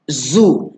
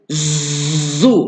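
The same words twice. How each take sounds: First: The z has a light, soft buzz. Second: The z has a strong, heavy buzz. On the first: The speaker calls it right. "ada seekor je lebahnya... tak adalah kuat sangat bunyi dia" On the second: The speaker calls it wrong. "dia bukannya zu. Ah, tu banyak sangat lebah dia"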